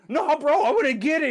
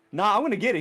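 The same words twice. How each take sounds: First: High, loud, stubborn mock protest; heated refusal. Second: Mild retold stubbornness; casual refusal. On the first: Shinji refusing to leave the spear, high heated mock protest. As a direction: insist in an excited, raised voice. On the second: Shinji refusing in the calmer retelling, mildly stubborn brush-off. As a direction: brush it off with light insistence.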